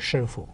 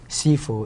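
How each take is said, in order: First: The word begins with an 'sh' sound. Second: The word begins with an 's' sound. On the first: This is the Mandarin form. "the proper Mandarin pronunciation is" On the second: This is the Cantonese form. "is the Cantonese uh, per, uh, version"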